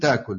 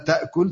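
First: The glottal stop is replaced by a long vowel. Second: The glottal stop is pronounced in the word.

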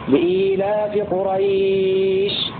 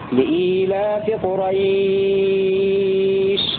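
First: The vowel before the final sh is held moderately. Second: The vowel before the final sh is held longest. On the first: "أو 4 حركات" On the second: "أو المد 6 حركات"

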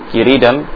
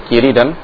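Both takes have the same delivery.

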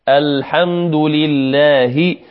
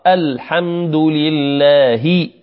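The two takes are said the same way.

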